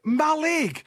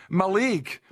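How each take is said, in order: First: "Mallaig" with an open first a, "MAL-aig", higher; correct pronunciation. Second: "Mallaig" with a weak first vowel, "muh-LAIG"; wrong pronunciation. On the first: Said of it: "It's called Mallaig". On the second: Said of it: "Don't be saying Mallaig". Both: Shown as a demonstration.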